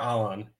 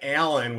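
First: The name is said with a Spanish-style pronunciation. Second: The name is said with a Chicago English accent. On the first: "it's more Alan"

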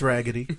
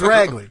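First: The word is said fully with three syllables. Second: The word is squeezed into two syllables. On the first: It sounds like trying too hard. The speaker calls it wrong. "if you say raggedy, you sound like you're trying too hard" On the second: It sounds natural and casual. The speaker calls it right. "definitely don't correct me. It's ragly"

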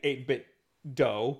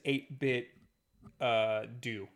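First: The last syllable rhymes with 'go'. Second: The last syllable rhymes with 'too'. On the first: The speaker calls it wrong. "I used to say 8-bit dough because it makes sense to be like Nintendo" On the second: The speaker calls it right. "it says 8-bit do, not dough"

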